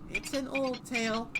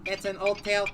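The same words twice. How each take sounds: First: Spoken in a normal, natural voice. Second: Spoken in a mechanical robot voice.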